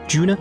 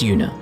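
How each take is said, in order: First: The name begins with a J sound. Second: The name begins with a Y sound. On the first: "With a G?" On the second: "It's Yuna, in case anyone's wondering"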